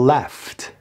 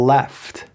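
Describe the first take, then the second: The two takes are said the same way.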